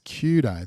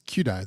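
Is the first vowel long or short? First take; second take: long; short. First: The first vowel is held long. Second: The first vowel is kept short.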